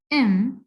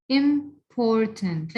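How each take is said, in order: First: "important" as "im", "por", "tant", long pauses between; divided into syllables. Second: Said in the usual way. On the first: Shown as a demonstration. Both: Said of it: "show you how we divide them".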